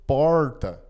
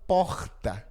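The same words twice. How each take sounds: First: It is said with a Paraná accent. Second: It is said with a Rio de Janeiro accent.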